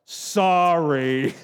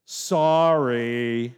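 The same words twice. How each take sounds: First: Put-on grudging drawn-out child's sorry; sulky child's sorry. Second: Put-on mumbled, grudging child's sorry; reluctant five-year-old apology; sulky child's sorry. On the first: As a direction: pout it out like a kid told to apologize. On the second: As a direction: drag the word out like a pouting kid. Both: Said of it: "what did it sound like when they repented".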